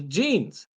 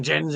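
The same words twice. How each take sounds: First: Genes said "jeenz"; usual pronunciation. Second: Gens said "jenz", for genes; deliberate mispronunciation. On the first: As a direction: say genes with a long ee. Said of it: "says genes". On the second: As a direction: say gens with a short e instead of a long ee. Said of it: "doesn't say you have". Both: Shown as a demonstration.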